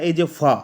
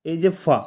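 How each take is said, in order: Both takes have the same delivery.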